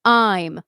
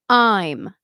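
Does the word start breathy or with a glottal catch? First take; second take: glottal; glottal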